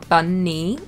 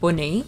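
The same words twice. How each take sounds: First: The word is said in a southern English accent. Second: The word is said in a northern English accent. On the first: The speaker calls it right. "so that I say bunny" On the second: The speaker calls it wrong. "instead of bunny"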